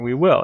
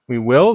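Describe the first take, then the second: First: It is said cheerfully, in an upbeat way. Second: It is said doubtfully, as a question.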